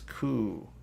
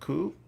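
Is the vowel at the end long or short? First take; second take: long; short. First: The final vowel is long. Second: The final vowel is short. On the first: The speaker calls it right. "but it's a long U" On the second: The speaker calls it wrong. "it's not ku"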